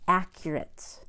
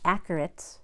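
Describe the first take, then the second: First: A 'y' sound comes before the 'u' vowel. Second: No 'y' sound comes before the 'u' vowel. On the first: The speaker calls it right. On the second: The speaker calls it wrong. "It is not"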